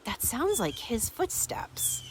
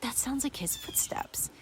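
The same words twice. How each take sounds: First: Said in the usual way. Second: Hushed, breathy whisper of recognition; a secretive whisper to herself. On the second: Retold or imitated. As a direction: whisper it like you don't want to be heard. She recognizes footsteps, hushed.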